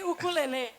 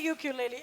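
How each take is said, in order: First: It is said the Brazilian way. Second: It is said the US way.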